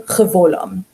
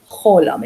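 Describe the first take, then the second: First: "chevolam" in three syllables with a v; consonant V sounded. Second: "cholam" in two syllables, no v; vav as O. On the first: Teacher showing learners the misreading, v sounded in "chevolam". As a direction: sound the vav as V: "che-vo-lam". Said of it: "You're not going chevolam". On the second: Teacher showing learners the reading, long O in "cholam". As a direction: turn the vav into a long O: "cho-lam". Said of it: "changes the va into an o". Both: Shown as a demonstration.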